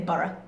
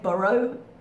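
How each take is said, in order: First: It is said the British way, with a reduced ending. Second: It is said the American way, with a full ending. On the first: The speaker calls it right. "we say borough" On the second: The speaker calls it wrong. "We don't say borough usually"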